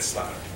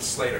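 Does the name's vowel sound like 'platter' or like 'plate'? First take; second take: platter; plate. First: The vowel sounds like the one in platter. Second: The vowel sounds like the one in plate. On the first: The speaker calls it right. "take platter, drop the P, put an S, and you get Slatter" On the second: The speaker calls it wrong. "Most people want to pronounce it Slater"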